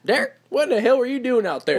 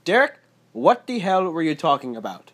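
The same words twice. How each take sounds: First: High Southern mom scolding with country twang. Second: Higher, louder mom with a Portuguese tinge; Portuguese tang. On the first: Southern stepmom telling off Derek, country twang. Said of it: "little country twang to it". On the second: Portuguese mom telling off her son Derek, slight Portuguese accent. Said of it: "have a little Portuguese tang to it". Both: Retold or imitated.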